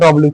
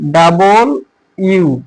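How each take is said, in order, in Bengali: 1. অক্ষরটি সংকুচিত হয়ে 'dublyu' উচ্চারিত হয়। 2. অক্ষরটি পুরোপুরি 'double you' উচ্চারিত হয়। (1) "সবাই বলে যে এটা ডব্লিউ" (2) "সঠিক উচ্চারণ হচ্ছে ডাবল ইউ"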